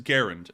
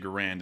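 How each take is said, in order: First: The stress is on the first syllable. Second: The stress is on the second syllable. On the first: The speaker calls it right. "but it is Garand" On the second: The speaker calls it wrong. "a lot of people say"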